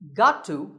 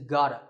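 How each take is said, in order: First: Both words are said fully and separately. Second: The words are blended into one reduced form.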